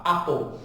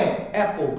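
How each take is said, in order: First: APPLE with an A-like first vowel; British-style apple. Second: APPLE with an open E-like first vowel; American-style apple. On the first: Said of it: "Britânico mais pro A". ("Apple" puxado pro A, à britânica) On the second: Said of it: "Americano fala mais pro E". ("Apple" puxado pro E, à americana) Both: Shown as a demonstration.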